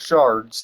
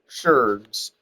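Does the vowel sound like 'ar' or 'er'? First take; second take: ar; er. First: The vowel is an 'ar' sound. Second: The vowel is an 'er' sound. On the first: The speaker calls it wrong. "They're not called shards" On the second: The speaker calls it right. "they're called um sherds"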